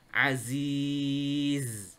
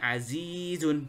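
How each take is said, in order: First: The word ends without the final 'un' sound. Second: The word ends with a final 'un' sound. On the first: The speaker calls it right. "Tapi zunnya hilang" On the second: The speaker calls it wrong. "ketika wakof di sini berhenti di sini kita tidak membaca azizun"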